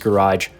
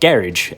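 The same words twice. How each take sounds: First: It is said with an American pronunciation. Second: It is said with a British pronunciation.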